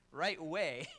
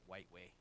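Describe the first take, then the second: First: Right way, corrected firmly with a clear r; corrected pronunciation. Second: White way, muttered much softer and lower as the slip; mispronounced white. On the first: Pastor corrects white to right way, firmly. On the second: Pastor mocks his own slip on white way, quietly. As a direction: white way, dropped low and quiet like a mistake. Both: Shown as a demonstration.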